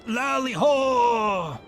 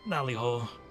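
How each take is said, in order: First: It is said loudly with lively energy. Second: It is said flatly and hesitantly.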